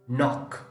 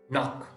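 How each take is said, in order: Both takes have the same delivery.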